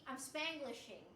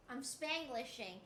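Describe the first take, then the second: No difference in how they are said.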